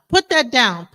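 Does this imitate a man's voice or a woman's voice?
woman. It is said in a lighter, softer woman's voice. The child does not take the command seriously. "a woman tells her tells her child"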